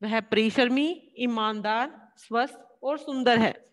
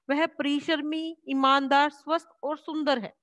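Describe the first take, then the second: First: वह परिश्रमी, ईमानदार, स्वस्थ और सुंदर है with a short break after each comma; slow list with clear comma breaks; slow comma pauses. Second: Comma pauses. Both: Shown as a demonstration. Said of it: "जो हम हल्का, हल्का ठहराव ले रहे हैं".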